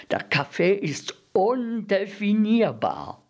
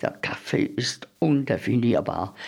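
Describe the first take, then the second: First: Exasperated harping, "undefinierbar" held high; insistent repetition. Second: Said in the usual way. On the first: A narrator's reading. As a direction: pitch it up and stretch "undefinierbar". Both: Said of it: "zum siebzehnten und zum achtzehnten Mal".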